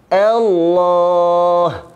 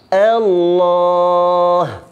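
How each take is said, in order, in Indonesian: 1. Vokal di awal itu tipis dan ringan. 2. Vokal di awal itu tipis dan ringan.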